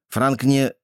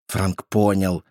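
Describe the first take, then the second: First: Breaks off mid sentence; cut off mid word. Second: Said in the usual way. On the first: A narrator's reading. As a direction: stop short on не. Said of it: "оборвал себя на полуслове".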